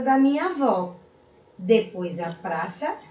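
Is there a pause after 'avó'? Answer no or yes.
yes. There is a short pause after avó. The speaker calls it right. "vários exemplos aqui do uso da vírgula"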